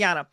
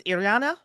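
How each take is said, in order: First: Iriana said as a statement, falling at the end; confirming the name. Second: Iriana said as a question, rising at the end; unsure, questioning. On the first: Player repeats the corrected name, confirming fall on Iriana. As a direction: settle on Iriana with a falling tune. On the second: Player asks how the name is pronounced, questioning rise on Iriana. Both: Real, not acted. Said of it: "pronounce his name again, it's".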